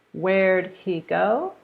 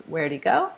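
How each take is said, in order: First: Said in the usual way. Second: "where'd he" with the h dropped, wherdy; reduced where'd he. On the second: Shown as a demonstration. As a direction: blend the words.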